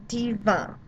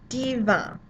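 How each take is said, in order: No difference in how they are said.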